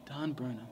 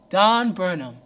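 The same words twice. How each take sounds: First: Soft hushed voice naming Don Burnham; whispered name. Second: Louder, the name Don Burnham called out and falling; announcing the other self. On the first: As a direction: murmur the name close behind his shoulder. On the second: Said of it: "that other guy would pop up". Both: Retold or imitated.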